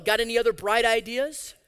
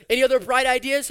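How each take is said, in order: First: Sarcastic question. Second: Other hit harder, louder; sarcastic, louder repeat. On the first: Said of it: "repeated with more force". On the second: Preacher taunting Jacob a second time, louder sarcasm. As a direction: jab the word other with scorn. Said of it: "repeat of the line". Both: Acted.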